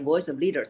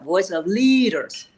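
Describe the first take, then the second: First: The words are said plainly without extra force. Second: The sounds of the words are stretched long. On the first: No one feels moved by it. "If you just say" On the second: It sounds weird. "then you're prolonging the sound. That sounds weird"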